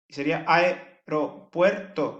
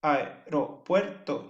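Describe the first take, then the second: First: "aeropuerto" said slowly with the "ae" merged into one syllable. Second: "aeropuerto" very slow, "ae" run together as one syllable; merged syllables. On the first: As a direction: say "aeropuerto" gliding "ae" together into one beat. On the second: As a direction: stretch out "aeropuerto" with "ae" as a single beat. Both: Shown as a demonstration. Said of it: "uniría la A con la E".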